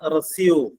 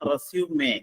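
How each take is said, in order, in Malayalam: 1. 'zoom' എന്നതിലാണ് ഇത് അവസാനിക്കുന്നത്, രണ്ട് ഭാഗങ്ങൾ. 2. 'may' എന്നതിലാണ് ഇത് അവസാനിക്കുന്നത്, മൂന്ന് ഭാഗങ്ങൾ. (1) "റെസ്യൂം എന്ന് പറഞ്ഞു കഴിഞ്ഞിട്ടുണ്ടെങ്കിൽ വെർബാണത്" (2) "നൗൺ ആയിട്ട് ഉപയോഗിക്കുമ്പോൾ അതിന്റെ ഉച്ചാരണം റെസ്യൂമേ എന്നാണ്"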